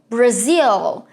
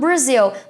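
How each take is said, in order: First: It is said with a rolled, native-like English sound. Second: It is said with a typical Brazilian accent. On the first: The speaker calls it right. "com uma entonação é, bem mais enrolada" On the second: The speaker calls it wrong. "os brasileiros têm um pouco de dificuldade de pronunciar essa palavra em inglês e falam Brazil"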